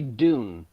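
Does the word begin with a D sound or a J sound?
D sound. The word begins with a plain D sound. "In America, we say dune"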